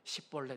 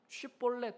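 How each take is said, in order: First: The word begins with an s sound. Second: The word begins with a sh sound. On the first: The speaker calls it wrong. "시볼렛 이러는 거예요" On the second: The speaker calls it right. "쉬볼렛 해야 되는데"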